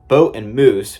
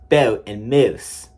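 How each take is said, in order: First: The long O and U sound standard. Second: The long O and U sound Philadelphian. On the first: The speaker calls it right. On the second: The speaker calls it wrong.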